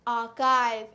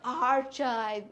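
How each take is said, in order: First: The middle consonant is a 'k' sound. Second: The middle consonant is a 'ch' sound. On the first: The speaker calls it right. "It is not ch, it is ka" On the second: The speaker calls it wrong. "It is not ch, it is ka"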